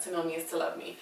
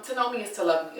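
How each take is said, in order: First: "To know me is to love me" said much softer, almost to herself; soft repeat. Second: Said in the usual way. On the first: Shown as a demonstration. Repeating her catchphrase to viewers, much softer. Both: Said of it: "repeats catchphrase to viewers".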